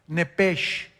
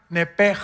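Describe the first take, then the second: First: The word ends with a soft 'sh' sound. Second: The word ends with a harsh throaty sound. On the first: "así como suena" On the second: "se pronuncian en hebreo como J, entonces se pronuncia nepej"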